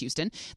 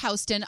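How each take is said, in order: First: It uses the Texas city's pronunciation. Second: It uses the New York street's pronunciation. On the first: It refers to the city named for another man. "unlike the city of Houston, which is pronounced Houston" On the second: It refers to the street named for one man. "the street's name is pronounced Houston"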